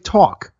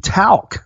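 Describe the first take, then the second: First: It has a New Jersey vowel, no L. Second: It is said with the L sounded.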